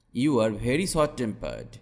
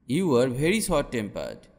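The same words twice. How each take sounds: The two takes are said the same way.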